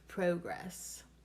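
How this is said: It is said with a British-style first vowel. "if you're in the U K or Australia"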